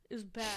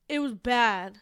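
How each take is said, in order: First: Softer, trailing repeat of "It was bad."; quiet echo. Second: Said in the usual way. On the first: Shown as a demonstration. Repeating to a co-host that he played badly, softer trailing echo. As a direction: drop the voice away on "It was bad.".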